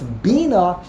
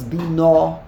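First: "bina" stressed on BI, the first syllable. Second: "bina" stressed on NA, the second syllable. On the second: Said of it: "the emphasis on the second syllable". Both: Shown as a demonstration.

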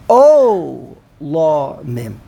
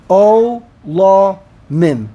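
First: O la mim with a long, swelling O at the front; stress on the ayin. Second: O la mim slowly, as three separate beats; syllable by syllable. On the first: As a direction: lean hard and slow on the O of o la mim. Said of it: "Under the ayin". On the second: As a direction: space out o, la, mim for counting. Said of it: "three syllables". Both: Shown as a demonstration.

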